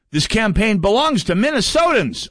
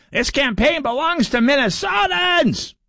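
First: Said in the usual way. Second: High, slow, shouted mock screech; mock Peggy Flanagan. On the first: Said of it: "And I quote". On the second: Host mocks Peggy Flanagan's campaign line with a high, slow screech. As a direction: belt it out in a shrill, mocking screech. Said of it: "Peggy Flanagan said it".

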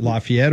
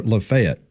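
First: Lafayette as lah-fee-ET; first variant. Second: Lafayette as luh-FAY-et; second variant. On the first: Asking which town name is right, Lafayette as lah-fee-ET. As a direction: say Lafayette with an EE and ET ending. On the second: Asking which town name is right, Lafayette as luh-FAY-et. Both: Shown as a demonstration. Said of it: "Is it Lafayette or Lafayette".

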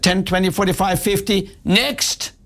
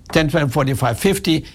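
First: Curt counting that jumps higher on next; unfriendly teller rushing the customer away; rude teller counting. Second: Friendly, even counting; helpful teller handing over change; polite teller counting. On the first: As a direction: count it off coldly and dismiss him. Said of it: "she hated me". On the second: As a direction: count it out kindly for the customer. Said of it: "What could she have done?". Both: Retold or imitated.

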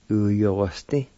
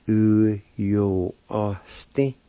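First: Said in the usual way. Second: Slow "U yo o s te", each part held; syllable by syllable. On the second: Shown as a demonstration. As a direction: stretch out "U yo o s te" piece by piece. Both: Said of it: "It's pronounced like this".

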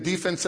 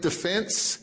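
First: Defense said DEE-fense, stress on the first syllable; sports-style stress. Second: Defense said de-FENSE, stress on the end; stress on second syllable. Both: Shown as a demonstration. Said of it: "put the right emphasis on the right syllable".

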